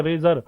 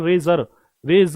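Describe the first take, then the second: First: Said in the usual way. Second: रेजर said slowly, leaning on the ज as a clear z; stretched z sound. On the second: Shown as a demonstration. Teacher drawing out the z in रेजर for students. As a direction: draw out the ज in रेजर and रेज. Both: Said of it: "जय की sound आ रही है".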